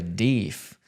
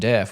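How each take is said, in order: First: The vowel is long, as in 'beef'. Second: The vowel is short, as in 'bed'. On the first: "I grew up hearing people say deef" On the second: "the way they were pronouncing deaf"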